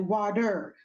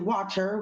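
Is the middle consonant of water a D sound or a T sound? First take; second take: D; T. First: The middle consonant is a soft D sound. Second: The middle consonant is a crisp T sound. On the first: "we say water. We use the D sound" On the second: "we don't say water"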